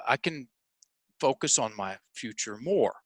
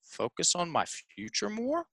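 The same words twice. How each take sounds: First: Hesitant statement, softer, falling on "more". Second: Soft, tentative question, rising high on "more". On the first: Client trying it as a statement for the coach, falling on "more". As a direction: state "I can focus on my future more" carefully, dropping at "more". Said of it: "Now say it like a statement". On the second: Client unsure of his answer to the coach, questioning rise on "more". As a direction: make "Focus on my future more?" an unsure question, lifting at "more". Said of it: "he said it like a question". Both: Retold or imitated.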